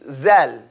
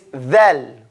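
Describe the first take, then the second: First: The name begins with a buzzing z sound. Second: The name begins with a th sound. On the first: The speaker calls it wrong. "There will not be any zal" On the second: The speaker calls it right. "If you can say the, you can say thal"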